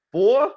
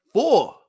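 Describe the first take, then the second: First: "Four?" asked high, with a sharp rising pitch; mock disbelief. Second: "Four." stated high and firm, with a falling end; emphatic confirm. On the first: Vlogger asking viewers in disbelief about Brunson's games, rising "Four?". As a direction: act stunned at the number "Four?". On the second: Acted. Vlogger confirming Brunson's four games, flat falling "Four.". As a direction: land "Four." like a fact nobody can argue with. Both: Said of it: "Yeah, you heard me".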